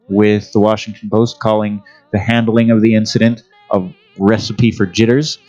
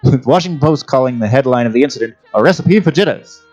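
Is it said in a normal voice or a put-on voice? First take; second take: normal; put-on. First: It is said in his normal voice. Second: It is said in a put-on voice.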